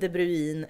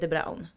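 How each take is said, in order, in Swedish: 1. Namnet slutar på ljudet 'oo-in'. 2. Namnet rimmar på det engelska ordet 'brown'. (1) "folk säger antingen De Bruin" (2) "Han heter De Braun"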